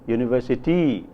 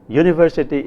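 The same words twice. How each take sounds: First: The stress is on the last syllable. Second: The stress is on the first syllable. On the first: It reflects an Adi English accent. "as university in Adi" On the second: It reflects a Tamil English accent. "pronounced as university in Tamil English"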